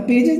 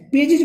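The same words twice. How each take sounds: First: पेजेस with "-jes", an E vowel and S ending; गलत उच्चारण. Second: पेजेस said as "pay-jij", short I and J ending; सही उच्चारण. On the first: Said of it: "नहीं बोला जाता". (पेजेस में "जेस" की आवाज़) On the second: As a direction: end पेजेस in "-jij", not "-jes". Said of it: "बोला जाता है". (पेजेस को "पेजिज" जैसा बोलना) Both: Shown as a demonstration.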